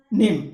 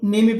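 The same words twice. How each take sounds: First: "नेम" as one syllable, final e silent; सही उच्चारण. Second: "नेम में" said as two syllables, ne-me; गलत उच्चारण. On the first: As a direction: say "नेम" ending firmly on the m. ("नेम" में आख़िरी ई मौन रखें) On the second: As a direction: sound the silent final e in "नेम में". ("नेम में" को गलत ढंग से ने-मे पढ़ें) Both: Shown as a demonstration. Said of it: "तो क्या आप इसको नेम में पढ़ते हैं".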